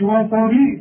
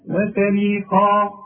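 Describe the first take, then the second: First: The opening wa is drawn out like a long vowel. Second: The opening wa is short and joined. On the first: The speaker calls it wrong. "ما تقولش وا" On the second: The speaker calls it right. "لا"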